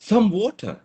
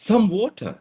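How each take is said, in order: First: It is said with surprise. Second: The same.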